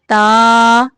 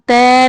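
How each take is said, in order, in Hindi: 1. स्वर खुला है, 'a' जैसा सुनाई देता है। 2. स्वर फैला हुआ है, 'ay' जैसा सुनाई देता है। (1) "लंबाई में खुले मुंह" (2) "तय नहीं पढ़ना"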